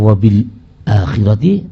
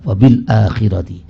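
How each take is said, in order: First: A brief stop comes before the second word. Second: The glottal stop is said fully without a stop. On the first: "bisa dibaca saktah" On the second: "bisa dibaca dengan tahqiq"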